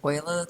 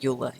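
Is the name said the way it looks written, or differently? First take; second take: differently; as written. First: The name is not said as it is spelled. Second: The name is said as it is spelled. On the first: The speaker calls it right. "it is pronounced Euler" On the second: The speaker calls it wrong. "not Euler, even though it does look like Euler"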